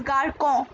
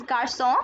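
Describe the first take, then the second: First: Garcon with a hard k sound. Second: Garçon with an s sound, gar-son; garçon with a cédille, an s sound; soft c garçon. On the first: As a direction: say garcon as gar-kon, the wrong way. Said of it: "without cédille, this would be pronounced as". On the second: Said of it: "cédille produces a sound S". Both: Shown as a demonstration.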